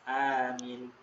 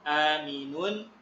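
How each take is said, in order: First: The word ends on its final consonant. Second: The word ends with an added vowel ending. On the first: The reader stops at this word. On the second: The reader carries on without stopping.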